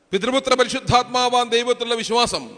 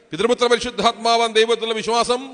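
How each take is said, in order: Both takes have the same delivery.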